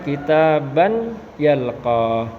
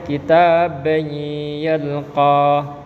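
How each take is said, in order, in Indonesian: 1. Bunyi n tetap jelas sebelum y. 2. Bunyi n melebur ke y yang mengikutinya. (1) "Tidak boleh dibaca" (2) "tapi dibaca"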